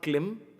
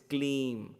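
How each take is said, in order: First: The vowel is short. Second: The vowel is long. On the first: The speaker calls it wrong. "It's not Klim" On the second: The speaker calls it right. "it's Kleem. There is a dash on top of I"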